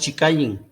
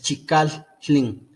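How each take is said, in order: First: The middle consonant is a plain double L. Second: The middle consonant is a split TL sound. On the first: The speaker calls it wrong. "No es Chicallin, no, no es así" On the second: The speaker calls it right. "es Chicaltlin ... Hay ahí como una separación"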